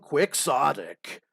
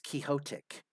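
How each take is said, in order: First: It is pronounced the common English way. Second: It is pronounced like the Spanish name Quixote. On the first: The speaker calls it wrong. "I I hate how people are like, well, he's just being quixotic" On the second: The speaker calls it right. "I'm always one who's like thinking it's Quixotic, you know, because it's it's Don Quixote"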